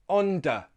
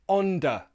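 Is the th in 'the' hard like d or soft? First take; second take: hard; hard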